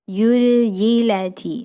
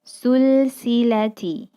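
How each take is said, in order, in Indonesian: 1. Kata ini diawali dengan bunyi y. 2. Kata ini diawali dengan bunyi s. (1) "huruf za menjadi huruf ya" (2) "huruf za menjadi huruf sa"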